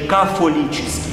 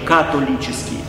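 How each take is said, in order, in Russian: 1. Слово произносится со звуком ф. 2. Слово произносится со звуком т. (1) "в восточном произношении" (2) "в западном произношении"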